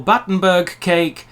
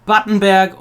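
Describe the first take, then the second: First: BATTENBERG said English, ending in 'burg'; English Battenberg, berg rhyming with iceberg; English pronunciation. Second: BATTENBERG ending in a German 'bairg'; German-style Battenberg with an open e in berg; German pronunciation. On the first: Offering both names of the cake, English pronunciation of Battenberg. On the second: Offering both names of the cake, German pronunciation of Battenberg. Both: Shown as a demonstration. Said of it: "Despite what the English think".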